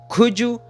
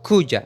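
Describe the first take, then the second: First: The last word is said as a full 'you'. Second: The last word is reduced to a short 'ya'. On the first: "com o som do could you" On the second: "ou a"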